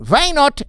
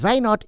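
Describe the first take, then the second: First: Put-on punchy Indian accent, higher and louder. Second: Put-on lighter Indian accent, a bit higher, "why" as "vy"; a milder replay of "Why not?" in the accent. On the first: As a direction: throw "Why not?" out in a loud Indian accent, "why" as "vy". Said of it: "The only thing I do on the Indian accent is I go". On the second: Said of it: "When I went".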